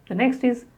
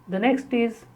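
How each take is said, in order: No difference in how they are said.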